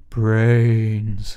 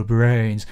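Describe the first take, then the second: First: Slow moaning zombie brains. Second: Lightly moaned zombie brains; a hint of a hungry zombie; zombie impression. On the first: Retold or imitated. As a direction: groan it like the undead. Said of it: "you said it earlier, [name]". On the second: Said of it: "doing an impression of a zombie".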